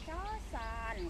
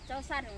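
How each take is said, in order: First: The word is said with strong emphasis. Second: The word is said with little emphasis. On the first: "kalau orang di sini kan cosan ... kan ditekan gitu kan" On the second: "Kalau saya kan uh, umpama cosan gitu aja ya"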